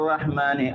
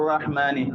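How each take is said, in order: The two takes are said the same way.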